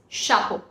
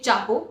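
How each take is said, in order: First: It begins with a soft sh sound. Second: It begins with a hard ch sound. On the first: The speaker calls it right. "It's chapeau" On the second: The speaker calls it wrong. "We don't say chapeau"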